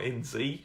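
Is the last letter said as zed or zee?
zee. The letter Z is said as zee.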